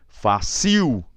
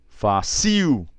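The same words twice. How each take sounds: First: The stress is on the last syllable. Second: The same.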